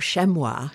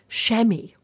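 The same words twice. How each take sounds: First: The word is said with a French pronunciation. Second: The word is said in a plain English way.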